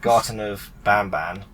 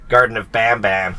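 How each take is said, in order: First: It is said in a British accent. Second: It is said in an American accent. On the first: "I feel so weird when I sound British" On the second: "everyone on YouTube is basically American going"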